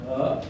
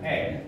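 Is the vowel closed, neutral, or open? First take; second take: neutral; open. First: The vowel is a neutral, relaxed schwa-like sound. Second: The vowel is an open e, as in bebek. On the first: "Yang pertama bunyinya O" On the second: "bebek, nenek"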